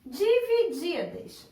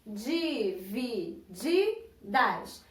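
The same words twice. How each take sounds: First: Said in the usual way. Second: "Divididas" very slow and lower, each syllable separate. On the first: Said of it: "eu vou falar a outra palavra". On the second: Shown as a demonstration. Teacher helping pupils find the tonic syllable, "Divididas" split into slow syllables. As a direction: sound out "Divididas" slowly, beat by beat. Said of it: "Qual foi a minha sílaba tônica".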